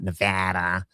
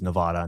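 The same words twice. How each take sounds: First: The word is said with a pinched, nasal sound. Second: The word is said plainly, without a nasal pinch. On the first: The speaker calls it wrong. "not Nevada. You don't hold your nose" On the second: The speaker calls it right. "It is Nevada"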